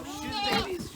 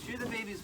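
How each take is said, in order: First: Much higher herding call; calling out to the animals. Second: Said in the usual way. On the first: Real, not acted. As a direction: sing out to move the flock. Calling animals across the yard.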